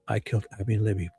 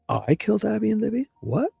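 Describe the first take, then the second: First: It is a flat statement falling at the end. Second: It is an incredulous question rising at the end.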